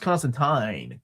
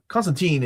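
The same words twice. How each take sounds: First: The last syllable rhymes with turpentine. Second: The last syllable does not rhyme with turpentine. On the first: This is the way the character himself says it. "it's pronounced Constantine" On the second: This is the American way of saying it. "Constantine is the American way of pronouncing it"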